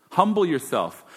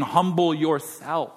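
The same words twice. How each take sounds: First: Said in the usual way. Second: Slow, weighty stress on Humble; slow emphatic command. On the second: Shown as a demonstration. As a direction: draw out Humble yourself like a command. Scripture command repeated.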